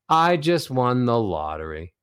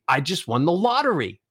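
First: The pitch drops from high to low. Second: The pitch climbs from low to high. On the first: The speaker sounds let down. "Descending melodies, the ones that go from high to low" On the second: The speaker is excited and happy. "Ascending melodies make you sound excited, make you sound happy"

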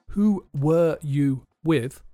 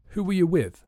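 First: Were and you are said in full forms. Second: Were and you are said in weak forms.

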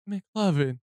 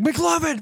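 First: The name is said with heavy disappointment. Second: The name is said without disappointment. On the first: "such disappointment in his voice" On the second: "all these takes he was doing"

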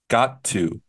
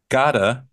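First: The two words are said separately. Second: The two words are smashed together.

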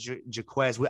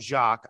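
First: The name is said the American way. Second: The name is said the French way. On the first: "I've said Jaquez" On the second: "you call him Jacques"

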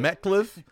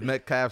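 First: The second syllable sounds like 'cliff'. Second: The second syllable sounds like 'calf'. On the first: The speaker calls it wrong. "I always Call him Metcliffe" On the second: The speaker calls it right. "but it's Metcalf"

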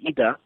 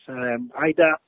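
First: The name is said with a Polish pronunciation. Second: The name is said with an English pronunciation.

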